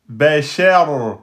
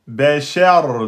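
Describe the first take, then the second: No difference in how they are said.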